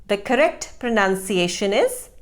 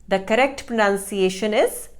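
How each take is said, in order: The two takes are said the same way.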